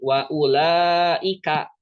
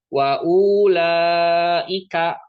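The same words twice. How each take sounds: First: "wa ulaika" said slowly with the waw left silent; correct reading demo. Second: "Wa ulaika" drawn out very slowly and louder, with the waw voiced; slow, exaggerated wrong take of "Wa ulaika"; wrong reading demo. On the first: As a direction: model the right way, waw not sounded. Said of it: "Karena sukunnya bulat". (contoh benar, "wa ulaika" pelan tanpa membaca waw) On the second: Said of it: "Jadi bacanya itu bukan kayak gini". (contoh salah, "Wa ulaika" dibaca sangat pelan dengan waw terdengar) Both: Shown as a demonstration.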